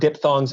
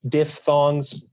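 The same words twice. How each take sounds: First: The middle consonant is said as a p sound. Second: The middle consonant is said as an f sound. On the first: The speaker calls it wrong. "It's not diphthongs" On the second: The speaker calls it right. "it's diphthongs"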